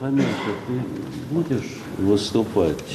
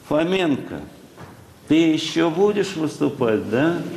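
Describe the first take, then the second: First: It is said in a normal speaking pitch. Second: It is said in a raised, squeaky pitch.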